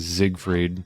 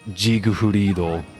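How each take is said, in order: First: The name is said closer to German pronunciation. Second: The name is said with Japanese syllables. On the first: "That's closer to the German pronunciation" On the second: "I like how they pronounce it in Japanese"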